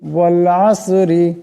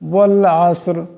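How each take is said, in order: First: The word ends with a short i vowel. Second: The word ends on a bare r sound. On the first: The word is read as if continuing on. "রাজির রি" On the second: The reader stops at the end of the verse. "এখানে দমসালে রা সাকিন হয়ে যাবে"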